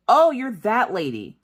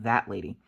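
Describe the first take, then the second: First: Imitating the cop. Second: Said in the usual way. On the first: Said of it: "And she goes". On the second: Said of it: "What the hell does that lady mean?".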